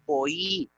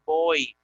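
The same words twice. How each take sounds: First: "boí" split in two syllables, bo-í, slowly; hiatus. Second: Put-on "boy" as one syllable, oi glided together; wrong diphthong. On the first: Teacher to class, slowly splitting the hiatus. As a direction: separate the i: "boí" as bo-Í, drawn out. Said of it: "sino boí". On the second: Teacher to class, showing the wrong diphthong reading. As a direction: say "boy" run together like English boy. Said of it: "no vamos a decir boy". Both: Shown as a demonstration.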